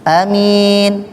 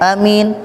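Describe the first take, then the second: First: Only the second vowel is held long. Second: Both vowels are said short. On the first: "a-nya pendek, min-nya panjang" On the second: "a pendek, mim pendek"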